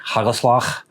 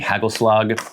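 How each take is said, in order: First: The g sounds are harsh and throaty. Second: The g sounds are plain and soft. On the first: The speaker calls it right. "I have heard Dutch people say like" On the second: The speaker calls it wrong. "when I was just saying"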